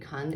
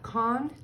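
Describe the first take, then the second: First: The vowel is reduced to a schwa. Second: The vowel is a full, clear vowel.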